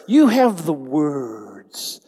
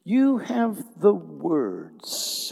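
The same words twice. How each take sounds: First: You have the words called out slow and loud; drawn out, ringing you have the words; louder, slow proclamation. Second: Said in the usual way. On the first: Shown as a demonstration. Pastor leads the congregation, slow and loud. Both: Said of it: "Everybody say the words".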